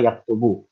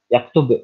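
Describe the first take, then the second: First: The word ends with a final u vowel. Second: The word ends on a bare b consonant.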